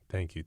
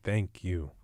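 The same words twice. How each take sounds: First: It is said quickly and automatically. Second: It is said slowly and sincerely.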